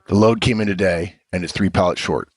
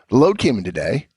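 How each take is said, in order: First: It is said in a cold, harsh tone. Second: It is said in a warm, friendly tone. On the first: The reader feels blamed by a stranger. "as if Charlie hasn't built a relationship with Vernon" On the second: The writer and reader know and like each other. "as if I'm Vernon, and I have a relationship with Charlie"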